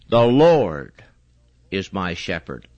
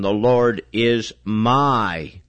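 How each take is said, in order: First: The stress is on Lord. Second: The stress is on my.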